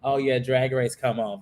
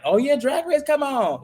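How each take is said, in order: First: Low, underwhelmed acknowledgement; unenthused reaction. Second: High-pitched eager cheer; excited reaction. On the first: Host mimics a viewer worn out by the long season, unenthused. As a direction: say it like the show is now routine. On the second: Host mimics a fan thrilled that Drag Race is on, excited. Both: Acted. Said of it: "versus being like".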